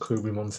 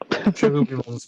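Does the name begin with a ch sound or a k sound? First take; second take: k sound; ch sound. First: The name begins with a k sound. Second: The name begins with a ch sound. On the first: This is the Japanese version of the name. "how they said it in Japanese" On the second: This is the English version of the name. "probably better in English"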